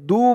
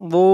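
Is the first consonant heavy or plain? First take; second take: plain; heavy. First: The first consonant is a plain light d. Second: The first consonant is heavy, with a full mouth. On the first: The speaker calls it wrong. "একেবারে দু বলা যাবে না, দু বললে কিন্তু এই দদের জায়গায় দালের উচ্চারণ চলে আসবে" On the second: The speaker calls it right. "উচ্চারণটা খেয়াল করবেন।"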